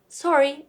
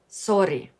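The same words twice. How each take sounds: First: The R is a smooth English R. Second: The R is rolled.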